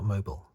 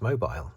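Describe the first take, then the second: First: The word is said in a lazy-sounding way. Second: The word is said in a careful-sounding way. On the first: The speaker calls it wrong. "not mobile" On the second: The speaker calls it right. "It's mobile"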